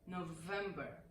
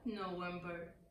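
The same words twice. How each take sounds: First: It begins with a V sound. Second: It begins with a W sound. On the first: The speaker calls it right. "it's November" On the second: The speaker calls it wrong. "not November"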